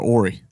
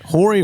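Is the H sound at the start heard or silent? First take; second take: silent; heard. First: The word begins with no H sound. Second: The word begins with an audible H sound. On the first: "H is silent" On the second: "Horry or Ori?"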